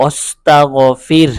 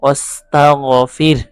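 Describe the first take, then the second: First: অস্তাগফির with the final হা barely sounded; অস্তাগফির drawn out, ending with a faint হা; light final ha. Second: অস্তাগফির slow, its last letter only half sounded; light final ha again. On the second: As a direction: say অস্তাগফির gently, trailing off the ending. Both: Shown as a demonstration. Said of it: "যেমন".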